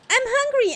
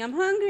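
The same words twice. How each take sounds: First: It is said in a high-pitched Maria voice. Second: It is said in the normal voice.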